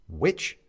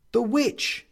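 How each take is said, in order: First: WITCH low with a questioning rise; low, querying WITCH; puzzled query. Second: WITCH pitched high, rising; high, pointed WITCH; man's interjection. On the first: Benedict asks about the Witch, low and puzzled. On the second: The man names The witch as goal, high and pointed. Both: A narrator's reading.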